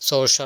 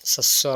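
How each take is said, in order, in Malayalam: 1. ആ പേര് 'so-sher' പോലെ തോന്നും. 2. ആ പേര് 'sas-war' പോലെ തോന്നും. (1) "നമ്മൾ സോഷർ എന്നൊക്കെ പറയും, അങ്ങനെയല്ല" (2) "സസ്വർ എന്നാണ് പറയാം"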